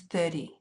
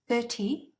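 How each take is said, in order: First: The middle consonant sounds like a D. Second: The middle consonant is a clear T.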